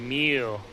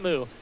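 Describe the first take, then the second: First: The vowel sounds like 'mew', with a y-glide. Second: The vowel sounds like 'moo', without a y-glide. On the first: The speaker calls it right. "it's actually Mew" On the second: The speaker calls it wrong. "not Moo"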